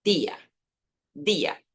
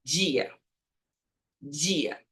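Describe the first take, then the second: First: Día with a clean hard D, not dji; Spanish día. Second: Dia said the Portuguese way, djia with a soft gi. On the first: Teacher contrasting Spanish día with a clean D. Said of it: "En español". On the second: Teacher showing the Portuguese dia, softly. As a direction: say dia like a Brazilian, dji-a. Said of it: "Si lo dices en portugués". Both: Shown as a demonstration.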